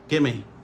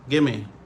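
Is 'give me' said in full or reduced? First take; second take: reduced; reduced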